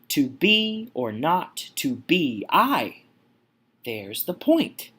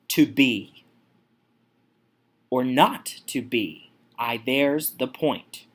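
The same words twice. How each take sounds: First: Strong stress lands on the word I. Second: The first two words are both stressed. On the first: "The emphasis is put on I here. Here's the trochee" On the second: "we have the spondy here within the first two words"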